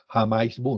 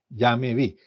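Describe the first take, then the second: First: The words are read with Spanish spelling sounds. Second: The words are said with French pronunciation. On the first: The speaker calls it wrong. "se oye muy maluco" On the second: The speaker calls it right. "es ya me vi"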